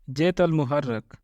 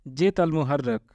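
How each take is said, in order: Both takes have the same delivery.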